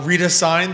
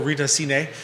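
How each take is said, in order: First: The surname is given an English-style pronunciation. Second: The surname is given a Spanish-style pronunciation. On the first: "I'm not sure which way to pronounce it" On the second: "maybe that's my Spanish speaking, doing Cine in uh, in Spanish"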